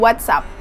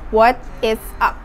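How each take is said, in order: First: The words are shortened into one contraction. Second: Each word is said in full, uncontracted. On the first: "Kalau disingkat" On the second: "kalau dipanjangin"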